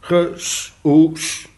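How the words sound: The name is said with Spanish pronunciation. "als ik een Mexicaan was, dan zou ik dat lezen"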